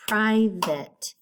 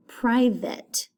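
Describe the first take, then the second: First: "private" in two beats, pri, vate; split syllables. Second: Said in the usual way. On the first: Shown as a demonstration. Teacher showing pupils two syllables, "private" split in two. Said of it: "Two syllables". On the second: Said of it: "Next one is the word".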